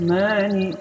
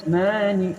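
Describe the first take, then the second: The two takes are said the same way.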